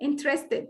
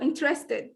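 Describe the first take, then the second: Both takes have the same delivery.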